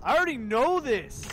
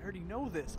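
First: Louder, already stressed; annoyed. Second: Said in the usual way. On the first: Real, not acted. Gamer snapping back at the game's message, annoyed. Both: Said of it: "repeated louder".

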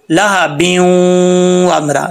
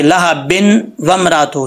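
First: लहा ब्यूं with a long nasal glide into वमरा; correct merged reading. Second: लहा बिन with a plain clear n before वमरातो; wrong unmerged reading. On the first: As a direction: hum ब्यूं straight into the w. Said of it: "बा को वाव से connect करेंगे". (ब्यूं में गुन्ना करके मिलाएँ) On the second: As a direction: show the mistake, बिन not blended into the w. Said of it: "ऐसे नहीं पढ़ेंगे". (बिन का नून साफ़, गलत मिसाल) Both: Shown as a demonstration.

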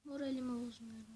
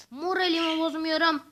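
First: Softer, muttered to himself; quiet repeat. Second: Louder, declared firmly; loud insisting. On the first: Gamer quietly repeats to himself he stays calm. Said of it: "Şşt". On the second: Gamer loudly insists he keeps his spirits up. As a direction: proclaim you are not upset. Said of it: "Sinirlerimi bozmuyorum". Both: Real, not acted.

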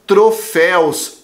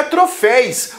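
First: Troféus with a clear -ÉUS ending, drawn out; correct plural. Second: Troféus said as "tro-FÉIS", ending in -éis; wrong plural. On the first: Teacher giving the right plural, troféus slow with -éus. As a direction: say troféus slowly, ending in éu plus s. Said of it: "o plural é troféus". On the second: Teacher rejecting a wrong plural, troféus mispronounced with -éis. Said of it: "O plural não é". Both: Shown as a demonstration.

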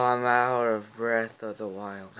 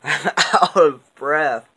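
First: Slow, softer punchline, still winded; breathless pun. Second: Laughing, breathless and slow, a little higher and louder; out of breath. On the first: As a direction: mutter the pun tiredly. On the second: Vlogger winded from reading out her long card list, breathless and laughing. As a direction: gasp it out slowly after laughing. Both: Real, not acted.

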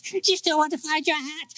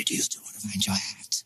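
First: Much higher, thin ghostly "hat?"; high eerie voice. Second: Quick, soft, ghostly whisper of "hat". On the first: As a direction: float the question up like a phantom child. Echo repeated, high voice. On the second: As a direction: hiss the question out fast and secret. Echo repeated in whisper. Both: A narrator's reading.

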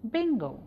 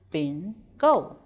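First: Said in the usual way. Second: "Bingo" split in two with a clear pause; syllable by syllable. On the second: Shown as a demonstration. Teacher showing pupils two syllables in "Bingo", measured and separated. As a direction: break "Bingo" into two separate syllables, second one firm. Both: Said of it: "two syllables".

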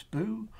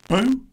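First: A held-back little "boo"; mild mock shout. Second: Sudden loud, high burst; shouted. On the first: Boo explains his fear to Spike, mild mock shout. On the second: Boo shows what makes him jump, shouted. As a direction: make them jump with it. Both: A narrator's reading. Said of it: "when someone shouts".

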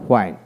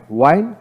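First: হোয়াইন begun with h before the w; sounded H. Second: ওয়াইন begun with a plain w. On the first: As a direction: say হোয়াইন as "hwain". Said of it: "ব্রিটিশে হ উচ্চারিত হয়". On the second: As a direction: say ওয়াইন as "wain". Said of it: "আমেরিকানে অ উচ্চারিত". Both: Shown as a demonstration.

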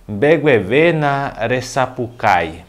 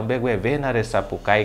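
First: Slow, drawn-out, carefully separated words; slow model phrase. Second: Said in the usual way. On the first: Shown as a demonstration. Teacher introducing "grite mais baixo" in Guarani, slowly enunciated. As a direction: enunciate it word by word for learners.

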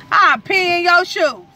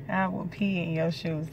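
First: Much higher, louder and slow; teasing shriek at husband; loud playful threat. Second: Softer, calm restatement; softer aside to viewers; quiet repeat. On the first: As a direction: shriek the threat through a grin. Repeats threat louder, laughing. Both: Real, not acted.

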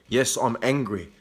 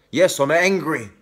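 First: Said in the usual way. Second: Raised, heated admission of anger; openly angry. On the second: Real, not acted. Admitting anger to critics in a heated defiant voice. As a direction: say it defiantly, fired up.

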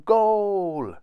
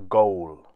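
First: High, loud drawn-out cheer; triumphant shout. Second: Said in the usual way. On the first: A narrator's reading. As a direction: celebrate scoring with a shout. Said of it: "he shouted".

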